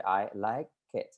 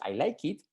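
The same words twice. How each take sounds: First: The vowel in 'it' is weak and reduced. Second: The vowel in 'it' is a clear, full 'ee'. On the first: The speaker calls it right. "Se hace la I como es y se dice I like it" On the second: The speaker calls it wrong. "Normalmente decimos I like it, pero no es I like it"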